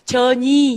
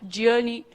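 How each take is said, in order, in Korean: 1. 마지막 음절은 강하게 발음해요. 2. 마지막 음절은 약하게 발음해요. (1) "끝에 발음을 좀 강하게 하는 경향이 있어서 전이 이렇게 되는 거예요" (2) "그게 아니라 journey"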